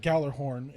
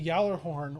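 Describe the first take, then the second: First: The name begins with a hard G sound. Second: The name begins with a Y sound.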